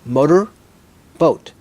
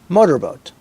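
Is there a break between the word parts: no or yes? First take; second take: yes; no. First: The two parts are said apart with a break. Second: The two parts are said quickly without a break. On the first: "My turn" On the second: "Say it fast"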